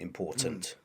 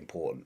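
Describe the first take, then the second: First: The middle T is pronounced as a full T. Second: The middle T is replaced by a glottal stop. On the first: "you would hear in R P" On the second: "I say important"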